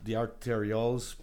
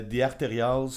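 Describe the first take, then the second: First: Said in the usual way. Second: Band name with French R and vowels; French accent. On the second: Real, not acted. Host naming a band to co-host, French accent. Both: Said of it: "j'ai comme dit avec un accent français".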